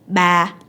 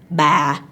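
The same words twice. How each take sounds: First: The pitch stays level through the syllable. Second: The pitch falls through the syllable. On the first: It means the number three. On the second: It means aunt.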